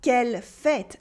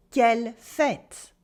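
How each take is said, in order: First: Said in the usual way. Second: "Quelle fête" slow, with a long open è in "fête"; teacher marking the open è in "Quelle fête". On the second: Shown as a demonstration. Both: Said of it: "you have to mark the eh".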